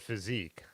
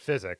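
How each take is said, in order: First: The word ends with an 'eek' sound. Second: The word ends with an 'ick' sound. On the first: This is the pronunciation the speaker always uses. The speaker calls it right. "I've always said physique on that one" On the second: This is a pronunciation the speaker never uses. The speaker calls it wrong. "I've never said physic"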